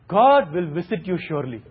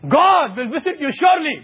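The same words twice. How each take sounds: First: It is said in a warm, kind tone. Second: It is said in a higher, threatening tone. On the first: A blessing is coming. "If I say with a kind tone, you are blessed" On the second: A punishment is coming. "if I say visit you in a higher tone, you are scared"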